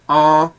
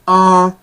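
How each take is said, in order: First: The vowel is nasal, not high in pitch. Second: The vowel is nasal and high in pitch. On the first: "the short form nasal tone" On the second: "the short form high nasal tone"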